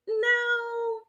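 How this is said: It sounds unsure and open, like a question.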